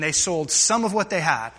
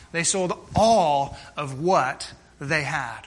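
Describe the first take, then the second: First: Said in the usual way. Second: Slow, with "all" drawn out and weighted; stress on "all". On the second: Shown as a demonstration. Preacher correcting a misquote for the congregation, slow stress on "all". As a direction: lean hard on "all", spacing out each word after it.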